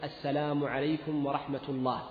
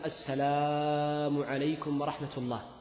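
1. يُقال السلام مختصرًا، دون إطالة الحركات. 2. يُقال السلام بمدّ الحركات وإطالة الصوت. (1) "فالسنة أن تقول السلام عليكم ورحمة الله فقط" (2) "فإن هذا يسمى مدا"

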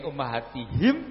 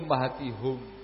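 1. Vokal setelah 'h' terakhir adalah 'i'. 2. Vokal setelah 'h' terakhir adalah 'u'. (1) "Yang ini ummahatihim" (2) "ummahatihum dengan membomah ha"

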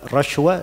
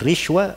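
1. Vokal pertama adalah bunyi a. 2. Vokal pertama adalah bunyi i. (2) "bisa dibaca rishwa"

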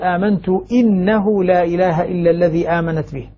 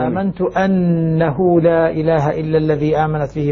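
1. همزة الكلمة تأخذ الكسرة. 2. همزة الكلمة تأخذ الفتحة. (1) "يقول بالكسر كسر أنه" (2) "الباقون يقرؤون بفتح الهمزة"

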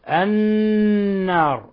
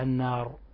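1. تُمسك النون المشددة مع همهمة أنفية. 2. تُنطق النون المشددة قصيرة دون إمساك بالغنة. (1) "نون مشددة حكمها أن تغن مقدار حركتين" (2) "فلا نقرأها النار"

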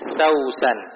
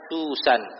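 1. Suku kata pertama memiliki vokal 'au'. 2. Suku kata pertama memiliki vokal 'u'. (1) "Kalau dibaca dengan bacaan yang kedua di fathah, bacanya Sausan" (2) "sin yang pertama dibaca dhammah, bacanya Susan"

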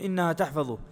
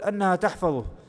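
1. الكلمة الأولى تبدأ بالحرف المتحرك 'i'. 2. الكلمة الأولى تبدأ بالحرف المتحرك 'a'.

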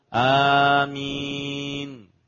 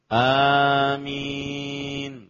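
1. Bunyi m pendek, tunggal. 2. Bunyi m pendek, tunggal.

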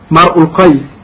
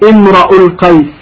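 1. تُنطق الكلمة الأولى: mar'u. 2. تُنطق الكلمة الأولى: imra'u. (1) "بفتح الميم وضم الهمزة" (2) "بفتح الراء"

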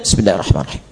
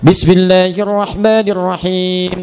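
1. Frasa ini dibaca pelan, hampir berbisik. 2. Frasa ini dibaca dengan keras dan terdengar jelas. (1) "Kedua disirkan" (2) "Pertama dijaharkan"

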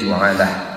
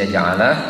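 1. Vokal pertamanya adalah 'u' bulat. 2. Vokal pertamanya adalah 'a' terbuka. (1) "wa yasihu dhammuha" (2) "yasihu fathuha"

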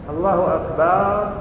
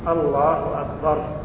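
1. الحركة الثانية في akbar ممدودة. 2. لا توجد حركة ممدودة في أي كلمة منهما. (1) "هذا جمع" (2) "الله أكبر كذا"

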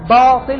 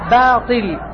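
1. صوت الباء ثقيل ومفخم. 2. صوت الباء خفيف ورقيق. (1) "هذا تفخيم" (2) "هي"

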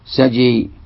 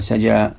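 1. الحركة الأخيرة مائلة نحو صوت 'e'. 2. الحركة الأخيرة صوت 'a' مفتوح. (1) "يميلون الألف المقصورة" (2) "هذه كلهم عندهم يفتحون"

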